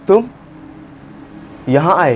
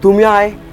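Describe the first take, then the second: First: It is said in a shocked, surprised tone. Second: It is said in a happy, cheerful tone. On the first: "अगर मैं shock में बोलूं" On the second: "happy emotion"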